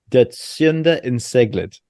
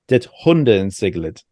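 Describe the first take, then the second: First: Sjunde is read letter by letter as spelled. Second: Sjunde begins with a breathy Swedish sound. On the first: "it looks like" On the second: "the way they say it on Google Translate is like"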